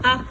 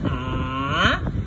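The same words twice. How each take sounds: First: The vowel is quick and short, unmarked. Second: The pitch dips down, then goes up. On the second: "Third tone"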